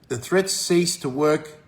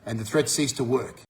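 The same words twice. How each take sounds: First: Slowed right down, each word leaned on; drawn-out emphasis; slow emphatic repeat. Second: Said in the usual way. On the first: Shown as a demonstration. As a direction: drive the point home slowly.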